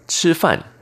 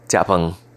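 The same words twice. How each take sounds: First: It is pronounced as in Mandarin. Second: It is pronounced as in Taiwanese. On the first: "In Mandarin Chinese" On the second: "In Taiwanese or Fujian dialect"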